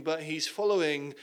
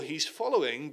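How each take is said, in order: First: But leaned on before following; stress on but. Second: Said in the usual way. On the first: Shown as a demonstration. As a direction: hit the word but, then following. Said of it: "at a distance".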